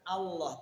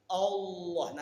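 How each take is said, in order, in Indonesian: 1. Vokal pertama adalah bunyi 'a' yang terbuka. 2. Vokal pertama adalah bunyi 'o' yang membulat. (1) "bukan Allah" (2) "kalimat O inilah yang tidak ada dalam Al-Qur'an"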